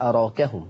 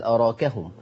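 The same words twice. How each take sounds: First: أراكهم with an open "aa" after the ر; fath pronunciation. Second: أراكهم with "raa" tilted toward "ree"; taqlil pronunciation. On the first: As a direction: say أراكهم with a full, unbent alif. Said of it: "لو أنت قصرت تفتح". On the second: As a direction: say أراكهم with a half-bent alif. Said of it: "ولو أنت وسطت تقلل". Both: Shown as a demonstration.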